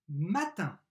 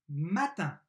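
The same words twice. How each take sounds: The two takes are said the same way.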